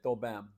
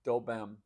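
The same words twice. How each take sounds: First: The first word is cut to one syllable. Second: The same.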